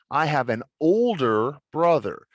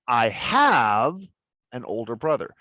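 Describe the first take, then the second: First: The stress falls on "older brother". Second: The stress falls on "have". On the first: The brother is older, not younger. "The emphasis is the older brother" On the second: The speaker really does have one. "meaning that this is, I do have it"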